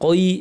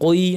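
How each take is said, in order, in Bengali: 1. স্বরধ্বনিটি অতিরিক্ত টানা হয়, শুনতে 'koi' এর মতো লাগে। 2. স্বরধ্বনিটি অতিরিক্ত টানা হয়, শুনতে 'koi' এর মতো লাগে।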